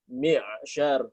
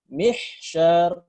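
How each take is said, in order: First: The airflow stops with a catch. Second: Air flows out like an h sound. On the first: The speaker calls it right. "dibaca mi'. Suara udara tidak mengalir" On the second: The speaker calls it wrong. "jangan dibaca mihsyar"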